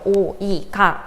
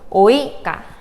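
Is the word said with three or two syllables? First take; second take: three; two. First: The o and i split into three syllables. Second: The o and i glide together in two syllables. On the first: The speaker calls it wrong. "이렇게 세 개가 아니고" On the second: The speaker calls it right. "이런 식으로 하셔야 되고요"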